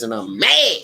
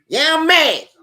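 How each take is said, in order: First: Said in the usual way. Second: Higher, emphatic mock-outraged yeah; exclaimed admission. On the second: Real, not acted. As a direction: burst out with it. Repeats he is mad, louder.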